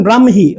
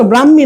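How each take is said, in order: First: ব্রাহ্মী said bram-hi, h clearly sounded; correct pronunciation. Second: ব্রাহ্মী said bram-mi with doubled m; wrong pronunciation. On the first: Teacher telling students what to say, ব্রাহ্মী pronounced bram-hi. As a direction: put an h after the m in ব্রাহ্মী. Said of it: "এটা বলবেন ব্রাহ্মী". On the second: Teacher contrasting wrong with right, ব্রাহ্মী mispronounced as bram-mi. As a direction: leave the h out of ব্রাহ্মী. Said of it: "তো ব্রাহ্মী না". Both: Shown as a demonstration.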